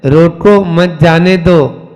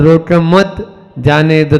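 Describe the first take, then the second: First: Slow "रोको मत जाने दो", grouping the words to change the sense; phrasing demo. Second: "रोको मत जाने दो" regrouped, at an ordinary pace; phrasing demo. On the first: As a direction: show how grouping changes "रोको मत जाने दो", taken slowly. ("रोको मत जाने दो" को धीरे, अर्थ का अंतर दिखाते हुए) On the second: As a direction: contrast the sense by moving the break in "रोको मत जाने दो". ("रोको मत जाने दो" में विराम बदलकर अर्थ का अंतर) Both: Shown as a demonstration. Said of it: "तो अंतर हो गया ना".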